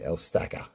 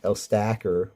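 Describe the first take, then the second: First: The name is said in an Australian way. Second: The name is said in a non-Australian way. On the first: This is how Australians say it. "we say" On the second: This is not how Australians say it. "we don't say um"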